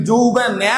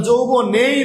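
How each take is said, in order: First: "যৌবনে" ending in an open æ, jou-bo-næ; wrong pronunciation. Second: "যৌবনেই" with a closed e, jou-bo-ne-i; correct pronunciation. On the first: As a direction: open the last vowel of "যৌবনে" to æ, as a mock wrong take. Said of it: "আমরা কেউ কি যৌবনে বলি". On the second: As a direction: say "যৌবনেই" slowly, keeping a pure e after n. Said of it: "আমরা যৌবনেই বলি". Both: Shown as a demonstration.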